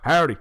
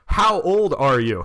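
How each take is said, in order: First: It is slurred together in a thick accent. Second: It is said clearly in a plain accent.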